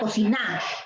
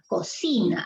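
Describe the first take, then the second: First: The stress is on the last syllable. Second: The stress is on the middle syllable. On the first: The speaker calls it wrong. "Si fuese en na, sería" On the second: The speaker calls it right. "Pero es cocina, cocina. Allí está la fuerza de voz"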